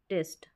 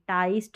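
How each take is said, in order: First: The vowel sounds like 'ee'. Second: The vowel sounds like 'eye'. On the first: The speaker calls it right. "यहाँ पर हम ई पढ़ेंगे टिस्ट करके" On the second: The speaker calls it wrong. "टाइस्ट नहीं"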